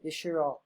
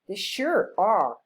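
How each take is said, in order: First: It is said flatly, without feeling or strong stress. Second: It is said with feeling, strong stress, rising-falling tune. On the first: The speaker calls it wrong. "You cannot say" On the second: The speaker calls it right. "Use strong stress and rising and falling intonation"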